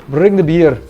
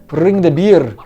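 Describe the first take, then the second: Both takes have the same delivery.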